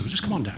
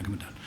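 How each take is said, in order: First: Higher, lightly voiced coaxing friend; a hint of the bandmates calling him down. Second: Much softer trailing echo; same coaxing, dropped to a soft afterthought; fading repeat. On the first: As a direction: sketch the bandmates urging him in. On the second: Retold or imitated. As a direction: let the repeat fall away under the breath. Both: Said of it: "And they said".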